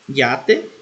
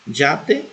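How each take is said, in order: First: The word begins with a 'y' glide sound. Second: The word begins with a 'dj' sound. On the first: "Pode ser pronunciada com é" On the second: "pode ser pronunciada com som de D J"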